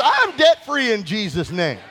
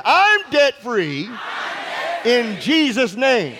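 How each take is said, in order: First: Said in the usual way. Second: Drawn-out, shouted I'm debt free; slow shouted declaration. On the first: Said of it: "Say this". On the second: Shown as a demonstration. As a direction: proclaim it slowly with full force. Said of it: "Let's try that again".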